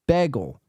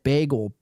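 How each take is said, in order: First: "bagel" said as BEH-gel, short e; "bagel" with a short flat e. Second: "Bagel" said as BAY-gel, long A; "Bagel" with a long A like the streamer. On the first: Shown as a demonstration. Showing viewers another way to say "bagel", short e. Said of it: "To say bagel is like". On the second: Retold or imitated. Imitating the streamer's "Bagel" with a long A. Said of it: "she really went long A".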